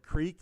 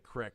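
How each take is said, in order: First: The vowel is a long ee sound. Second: The vowel is a short i sound. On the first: "Instead of saying like creek, like the like a small river" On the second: "I'll say crick, and that's very, very fucking Pennsylvanian"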